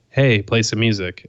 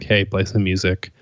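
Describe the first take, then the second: First: It is said louder with careful enunciation. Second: It is said casually at normal volume. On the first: This is what the device needed to trigger. "slightly enunciating it" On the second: The device did not pick it up. "saying it in just like my normal tone"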